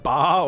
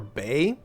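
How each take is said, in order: First: The vowel is an open "ah" sound. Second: The vowel is an "ay" sound. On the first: "Is it ba or bay?" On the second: "Is it ba or bay?"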